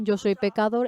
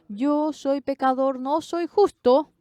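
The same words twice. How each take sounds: First: Said in the usual way. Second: Higher, slower, stress on Yo and justo; emphatic confession. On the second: Acted. Preacher declaring to the congregation he is a sinner, emphatic and slow. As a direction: lean hard into Yo soy pecador.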